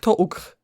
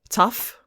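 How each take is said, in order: First: It is read letter by letter, Polish-style. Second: It is said with normal English pronunciation.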